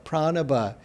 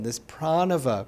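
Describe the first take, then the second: First: The consonant before the last vowel is a b. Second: The consonant before the last vowel is a v. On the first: The speaker calls it right. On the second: The speaker calls it wrong.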